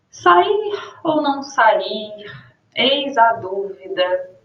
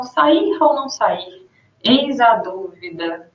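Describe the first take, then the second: First: Slow, drawn-out pondering; reflective pause. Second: Slow, hesitant musing; reflective pause. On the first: Teacher reading a pensive line to show ellipsis. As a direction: let the doubt hang, slowly. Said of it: "tem uma reflexão". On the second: Teacher repeating the pensive ellipsis example. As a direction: trail off as if thinking. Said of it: "uma reflexão". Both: Shown as a demonstration.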